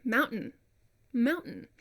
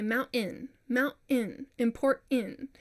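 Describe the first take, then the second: First: "mountain" with the T replaced by a throat catch; standard glottal T. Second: "mountain" as "moun-in" with an added vowel after the catch; non-standard glottal T. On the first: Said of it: "bypassing the T". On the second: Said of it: "add in another vowel". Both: Shown as a demonstration.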